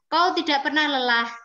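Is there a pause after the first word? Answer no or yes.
no. The line is read straight through without pausing. The speaker calls it wrong. "itu kan langsung, nggih, tidak ada jedanya"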